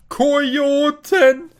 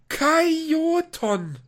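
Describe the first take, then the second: First: The first vowel is an 'o' sound. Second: The first vowel is an 'a' sound. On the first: The speaker calls it right. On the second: The speaker calls it wrong. "wo ist da ein A?"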